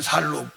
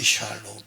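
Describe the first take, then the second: First: The word begins with a plain s sound. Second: The word begins with an sh sound.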